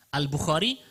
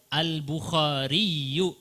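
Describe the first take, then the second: First: Said in the usual way. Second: Very slow Al-Bukhariyu with doubled y; tasydid reading. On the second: Shown as a demonstration. Teacher contrasting Al-Bukhari with the full form. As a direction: stretch Al-Bukhariyu, stressing the doubled y. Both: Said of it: "ada tasydidnya sebenarnya".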